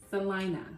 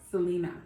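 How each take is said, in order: First: The name is said the Salina way. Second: The name is said the Selena way. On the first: The speaker calls it right. "which is pronounced Salina" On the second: The speaker calls it wrong. "not Selena"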